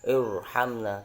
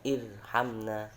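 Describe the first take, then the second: First: The r is pronounced heavy and thick. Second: The r is pronounced light and thin. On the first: The speaker calls it right. "tapi tebal irhamna" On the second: The speaker calls it wrong. "bukan irhamna"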